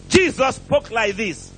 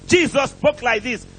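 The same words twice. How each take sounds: The two takes are said the same way.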